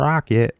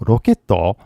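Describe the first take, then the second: First: It is said with an English pronunciation. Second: It is said with a Japanese-style pronunciation. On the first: The speaker calls it right. "don't forget the pronunciation" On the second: The speaker calls it wrong. "Because I know a lot of you, you know"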